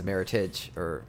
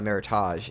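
First: It is pronounced like an English word. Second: It is pronounced like a French word. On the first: The speaker calls it right. "It's a Meritage. Yeah, Meritage, because it's an English word" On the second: The speaker calls it wrong. "It's not a Meritage. ... It's not like Merlot or Syrah, where it's a French word"

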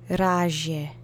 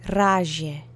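No difference in how they are said.

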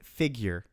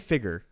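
First: The word is said slowly with every sound enunciated. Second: The word is said in a relaxed, casual way. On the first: This is a corrected pronunciation adopted after teasing. "I have to enunciate it" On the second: This is the speaker's habitual everyday pronunciation. "I've said it my whole life like that"

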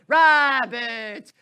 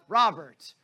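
First: The name is said in a theatrical, stylized way. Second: The name is said in a plain, ordinary way. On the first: "you had to say it in a very stylized manner" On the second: "you couldn't just go"

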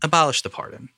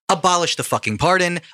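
First: It sounds defeated and subdued. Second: It sounds exasperated and impassioned.

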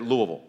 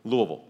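The two takes are said the same way.

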